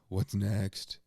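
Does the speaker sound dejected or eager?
dejected. It sounds weary and dejected, with a groan. The person is putting themselves down. The speaker calls it wrong.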